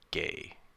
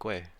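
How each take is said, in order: First: The name is said with no w after g. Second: The name is said with a w after g. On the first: The speaker calls it right. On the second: The speaker calls it wrong. "have I been saying it wrong this entire time?"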